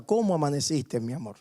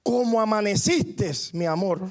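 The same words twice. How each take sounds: First: Tender and loving. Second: Exasperated outburst. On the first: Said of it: "Con cariño, con amor le pregunta". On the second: Husband fed up with his complaining wife, exploding in exasperation. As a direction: drag it out as he finally loses patience. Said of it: "el esposo explota y le dice". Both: Retold or imitated.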